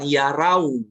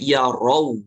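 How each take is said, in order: First: The final vowel is changed toward an 'au' sound. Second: The final vowel stays close to an 'o' sound. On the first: The speaker calls it wrong. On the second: The speaker calls it right.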